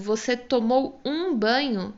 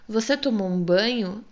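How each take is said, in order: First: The stress falls on the word tomou. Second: The stress falls on the word banho.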